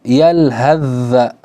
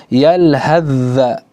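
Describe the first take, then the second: The two takes are said the same way.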